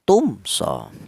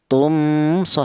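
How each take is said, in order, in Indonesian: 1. Bunyi m diucapkan dengan jelas. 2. Bunyi m tersembunyi dan samar. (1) "Yang betul dibaca jelas atau idhar" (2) "jangan dibaca ifa atau samar ... salah"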